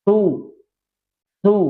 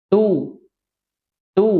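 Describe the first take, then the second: Both takes have the same delivery.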